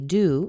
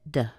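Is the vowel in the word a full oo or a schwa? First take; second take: full oo; schwa. First: The vowel is a full oo sound. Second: The vowel is reduced to a short schwa. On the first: The speaker calls it wrong. "we don't say do" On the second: The speaker calls it right. "put a little baby uh schwa there"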